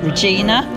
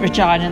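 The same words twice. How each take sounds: First: The name is said the American way. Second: The name is said in a non-American way. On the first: This is how people in America say it. "they pronounce it Regina" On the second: This is not how people in America say it. "where they don't pronounce it Regina"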